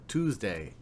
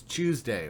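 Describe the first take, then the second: First: Tuesday with a plain "Tooz-day" opening; the "Tooz-day" version of Tuesday; regional pronunciation. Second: Tuesday with a "Chews-day" opening; the "Chews-day" version of Tuesday; regional pronunciation. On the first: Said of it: "depending on what part of the world". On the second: Two regional ways of saying it. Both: Shown as a demonstration.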